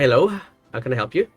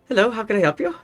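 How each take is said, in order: First: It is said in a lower, ordinary voice. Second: It is said in a raised, higher-pitched voice. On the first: The speaker calls it wrong. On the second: The speaker calls it right.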